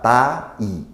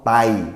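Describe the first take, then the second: First: The word is split into two separate syllables. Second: The word is one syllable with a diphthong. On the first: "Thai itu dua kosa- do- dua suku kata" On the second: "I-nya tuh diftong, disambung ngomongnya"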